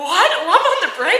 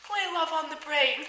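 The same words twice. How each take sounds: First: High, loud, laughing disbelief; astonished echo. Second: Higher-pitched, unhurried request; imitated song request. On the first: Retold or imitated. Driver hearing surprise song choice, incredulous question. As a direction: repeat it as a stunned question. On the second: Staff member asking driver for favorite song, high-voiced request. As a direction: ask for it with pitch raised and falling at the end.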